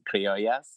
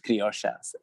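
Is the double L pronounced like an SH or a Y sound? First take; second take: Y; SH. First: The double L sounds like a Y. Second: The double L sounds like an SH. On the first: "in every Latin country, in Spanish, the double L, you just pronounce it" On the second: "But in Argentina, it's like an SH"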